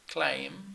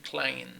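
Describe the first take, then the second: First: The word ends with closed lips on M. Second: The word ends with open lips on N. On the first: The speaker calls it right. "instead of saying claim" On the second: The speaker calls it wrong. "you could say claim"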